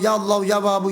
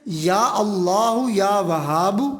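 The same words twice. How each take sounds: First: The phrase is said fast and rushed. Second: The phrase is said slowly and steadily. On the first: The speaker calls it wrong. "ऐसे नहीं" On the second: The speaker calls it right. "ये एक सांस हो गया"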